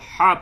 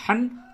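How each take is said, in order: First: The syllable ends with a long a vowel. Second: The syllable ends with an n sound. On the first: The reader stops at this word. "जब आप वक्फ करेंगे तो हा अलिफ जबर हा" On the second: The reader continues into the next verse. "अगर आप वक्फ नहीं करते तो ये अलिफ नहीं पढ़ी जाएगी"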